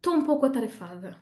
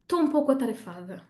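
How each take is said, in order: First: The opening syllable es is dropped. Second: The same.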